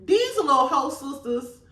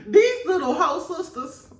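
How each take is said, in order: First: Said in the usual way. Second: High, laughing through the words; giggling repeat. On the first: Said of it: "repeated with laughter". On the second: Real, not acted. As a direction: crack up repeating it. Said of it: "repeated laughing".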